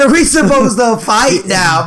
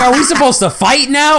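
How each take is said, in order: First: Slow mocking repeat. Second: High, puzzled rising question; confused kid voice. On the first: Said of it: "He said". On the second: Retold or imitated. Retelling sibling's confused question.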